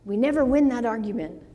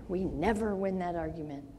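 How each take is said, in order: First: Said in the usual way. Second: Softer, lower echo of the line; quiet repeat. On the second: Shown as a demonstration. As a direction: let it settle, softly.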